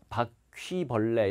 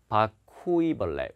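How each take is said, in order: First: The '퀴' is said as one syllable. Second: The '퀴' is split into two syllables. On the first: "이렇게 발음 못해요" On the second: "우이로 끊어서 읽어요"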